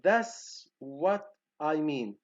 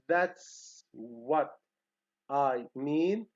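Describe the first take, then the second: First: The t sound in "that's" is dropped. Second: The t sound in "that's" is pronounced. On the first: The speaker calls it wrong. "they drop t sound here" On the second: The speaker calls it right. "instead of saying like that, that uh, this pronunciation"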